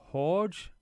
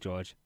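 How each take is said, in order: First: The name begins with an H sound. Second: The name begins with a J sound. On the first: The speaker calls it right. "It's pronounced like a H" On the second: The speaker calls it wrong. "I hope I'm saying that correctly"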